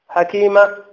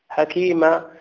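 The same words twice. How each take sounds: First: The final vowel is held for one count. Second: The final vowel is held for two counts. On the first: The speaker calls it wrong. "هذه حركة" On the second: The speaker calls it right. "هكذا حكيما"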